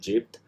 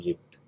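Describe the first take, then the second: First: The word begins with a J sound. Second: The word begins with a Y sound. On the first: This is the standard form. "normal pronunciation would be Jept" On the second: This is the Gulf dialect form. "with the sound change uh, in the Gulf Arabic from Jim to Ya, it will become Yipt"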